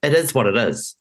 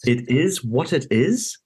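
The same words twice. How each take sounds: First: A light imitation of a broad Kiwi twang; light mock Kiwi twang; twangy Kiwi accent. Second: Slow, higher, disbelieving repeat of the phrase; slow incredulous echo of a heartless remark. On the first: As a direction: mimic the politician's casual Kiwi shrug, lightly. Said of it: "in his twangy Kiwi accent". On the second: Retold or imitated. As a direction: throw his words back in disbelief. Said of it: "And I was like".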